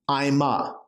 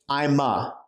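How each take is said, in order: Both takes have the same delivery.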